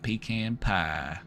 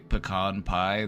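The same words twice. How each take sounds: First: Pecan is said the Southern way. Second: Pecan is said the non-Southern way. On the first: The speaker sounds like a local. The speaker calls it right. "Gotta say, give me a slice of that pecan pie" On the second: The speaker is an outsider. The speaker calls it wrong. "if you go to Texas and you say pecan pie, they shoot you on sight"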